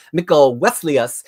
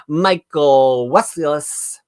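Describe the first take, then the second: First: "Michael Wesleyus" said more smoothly, rising at the end; corrected name. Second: "Michael Wesleyus" said very slowly, falling at the end; hesitant first try at the name. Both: Shown as a demonstration. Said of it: "wait, I can do that better".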